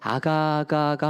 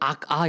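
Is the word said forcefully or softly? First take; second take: softly; forcefully. First: The word is said softly and smoothly. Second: The word is said with a forceful first syllable. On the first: The child is a cute baby. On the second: The child has a little evil inside.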